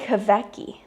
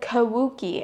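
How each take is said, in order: First: The name is said as Kawecki. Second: The name is said as Kawuki. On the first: The speaker calls it right. "it's literally Kawecki" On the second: The speaker calls it wrong. "the last name I said Kawuki"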